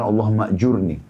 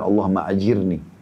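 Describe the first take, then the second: First: The vowel after the j is u. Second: The vowel after the j is i. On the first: The speaker calls it right. "jadi yang benar" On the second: The speaker calls it wrong. "ada kekeliruan ucapan saya, saya mengatakan"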